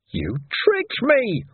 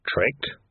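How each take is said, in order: First: High, slow wailing complaint "tricked"; stretched high wail on "tricked". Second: Understated growled "Tricked?"; mild growl. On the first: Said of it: "Ferret wailed". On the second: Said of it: "he growled". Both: Acted.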